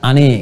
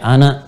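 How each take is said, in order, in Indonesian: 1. Vokal akhir diucapkan sebagai e. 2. Vokal akhir diucapkan sebagai a terbuka. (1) "dia pakai imalah e" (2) "kalau kita ungkapkan a"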